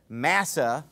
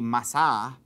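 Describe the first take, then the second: First: The name is said in an English style. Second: The name is said in a Hebrew style. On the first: "or that's how I pronounce it" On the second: "the Hebrew way to pronounce it would be Massah"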